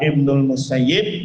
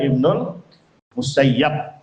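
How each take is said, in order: First: The name ends with the vowel i. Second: The name ends with the vowel a. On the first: "bisa dibaca Ibnu Musayyib" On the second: "bisa dibaca Ibnu Musayyab"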